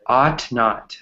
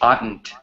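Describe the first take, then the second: First: It is said as two separate full words. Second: It is said as one contracted word.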